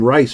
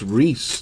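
First: The vowel is an 'eye' sound, like rice. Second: The vowel is an 'ee' sound, like geese. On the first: The speaker calls it wrong. "I was calling him Rice for the longest" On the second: The speaker calls it right. "Then I heard it's Reese, the correct pronunciation"

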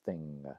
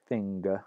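First: The word ends in ng with no g. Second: The ng is followed by a hard g. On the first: This is the later pronunciation. "comes to be pronounced thing" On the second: This is the older pronunciation. "Middle English word like thing"

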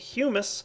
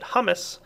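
First: It sounds like the word humus. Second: It sounds like the word hummus. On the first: The speaker calls it right. "But it's actually humus" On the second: The speaker calls it wrong. "I like to pronounce it hummus"

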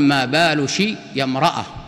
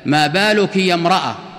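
First: The feminine ending is said with an sh sound. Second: The feminine ending is said with a k sound.

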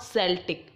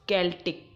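First: The word begins with an S sound. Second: The word begins with a K sound. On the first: The speaker calls it wrong. "It's not Celtic. ... C का नहीं" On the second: The speaker calls it right. "It's Celtic. K का pronunciation अपन लेंगे"

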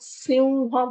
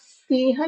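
First: The word is said in its everyday form. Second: Every written letter is sounded out. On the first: This is how the word is said aloud. "बोलते वक्त सिंह बोल रहे हैं" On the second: This is how the word is written. "लिखते वक्त सिंह लिखा है"

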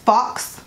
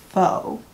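First: It is said like fox, with a final ks. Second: It is said like foe, with no final ks. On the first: The speaker calls it wrong. "If I heard one more person pronounce the word F-A-U-X as fox" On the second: The speaker calls it right. "F-A-U-X is faux"

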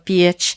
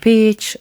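First: The vowel is a soft, gliding ie sound. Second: The vowel is a hard, firm i sound. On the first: This is how the local dialect says it. "А у нас це все «п'є», «іє», настільки м'яко" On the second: This is how the minority community says it. "У них більш твердим «і» вони вимовляються"

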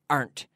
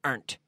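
First: The word is said as one syllable. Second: The same.

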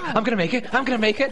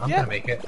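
First: It is said in a panicked, anxious way. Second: It is said in a calm, confident way. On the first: The speaker doubts reaching the goal. "There wasn't like a panic" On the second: The speaker is sure of reaching the goal. "There was a sound of confidence in his voice as well"

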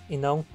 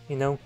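No difference in how they are said.

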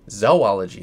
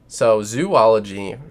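First: The first syllable sounds like 'zoh'. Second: The first syllable sounds like 'zoo'. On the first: The speaker calls it right. "Zoology is actually how you say it, because Z-O, means animals" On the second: The speaker calls it wrong. "zoology sounds like you're studying zoos"

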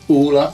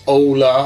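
First: The name is said with a Swedish pronunciation. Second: The name is said with a non-Swedish pronunciation.

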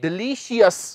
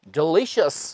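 First: The ending is split into 'shee-us' syllables. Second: The ending is a short single 'shus' sound. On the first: The speaker calls it wrong. "ਨਾ ਕਿ ਡਿਲੀਸ਼ੀਅਸ। ਡਿਲੀਸ਼ੀਅਸ ਗਲਤ ਹੈ।" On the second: The speaker calls it right. "ਲਗਭਗ ਇਹ sound ਨਿਕਲਦੀ ਹੈ ਸ਼ਸ"

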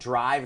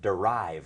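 First: It starts with a tight d-r consonant cluster. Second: A short vowel is inserted between d and r. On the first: "มี dr ควบกล้ำต้นคำ" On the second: "เพิ่มสระอะเข้าไปเป็น"

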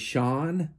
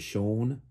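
First: The name is said in a non-English way. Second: The name is said in the English way. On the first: The speaker calls it wrong. "I know that you would say Sean, but that's really not how you say his name" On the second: The speaker calls it right. "English comes from England and they say Sean"

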